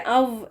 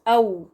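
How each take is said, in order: First: The syllable ends in a buzzing v sound. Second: The syllable ends in a rounded vowel glide. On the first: The speaker calls it wrong. "ये अव नहीं है" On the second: The speaker calls it right. "ये बन गया औ"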